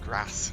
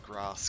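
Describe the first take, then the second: First: It is said in a northern English accent. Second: It is said in a standard British accent. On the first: "I had a friend who was who was northern, and she said grass" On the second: "I say things like grass"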